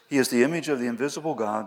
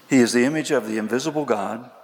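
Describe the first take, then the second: First: It is read at a normal pace. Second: It is read more slowly.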